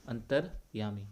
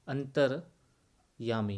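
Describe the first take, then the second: First: Said in the usual way. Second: अंतर्यामी drawn out slowly, each syllable separate; अंतर्यामी को धीरे-धीरे, टुकड़ों में. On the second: Shown as a demonstration. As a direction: spell out अंतर्यामी slowly for students. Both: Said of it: "यानी अंतः धन यामी".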